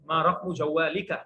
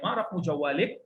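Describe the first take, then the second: First: The phrase ends with a final vowel sound. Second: The final vowel is dropped, ending on a consonant.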